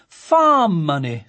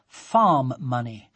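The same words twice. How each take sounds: First: Slow, louder, full of approval; admiringly. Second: Said in the usual way. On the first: A narrator's reading. A father praising his daughter's sale, slow admiring voice. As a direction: savour it with proud admiration. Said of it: "said Sophie's father admiringly". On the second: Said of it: "a notice which read".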